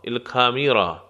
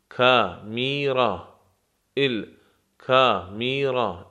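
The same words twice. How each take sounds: First: Said in the usual way. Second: الکامیرا drawn out syllable by syllable, very slow; الکامیرا, very slow and careful; very slow model word. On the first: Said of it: "teacher says it normally". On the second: Shown as a demonstration. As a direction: stretch الکامیرا out for learners. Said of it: "teacher stretches the word".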